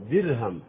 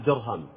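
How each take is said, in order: First: درهم said with a thin, light ر. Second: درهم said with a thick, heavy ر; teacher shows the mistake: درهم with a full-mouthed ر; wrong heavy ra. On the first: Teacher models the correct thin ر for students. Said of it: "أرقق الراء". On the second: Teacher warns students against a heavy ر in درهم. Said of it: "لا أقول درهم". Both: Shown as a demonstration.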